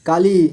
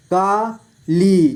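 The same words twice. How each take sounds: First: Said in the usual way. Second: Kali split slowly into का, ली; syllable by syllable. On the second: Shown as a demonstration. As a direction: stretch and separate का and ली in काली. (काली को तोड़कर धीरे: का, ली) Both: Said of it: "इस तरह से आपको".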